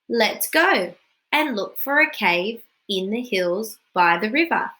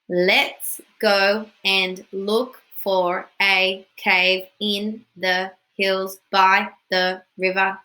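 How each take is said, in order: First: It is read in a lively, natural talking voice. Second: It is read in a flat, robotic voice. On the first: The speaker calls it right. "Reread and make it sound like talking" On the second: The speaker calls it wrong. "Boring. I don't want to sound like a robot"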